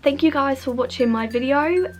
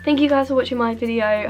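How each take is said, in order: First: It is said with an Australian-sounding accent. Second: It is said in the speaker's usual accent. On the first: The speaker calls it wrong. "Now I'm sounding Australian" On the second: The speaker calls it right. "we're not going to do an Australian accent anymore"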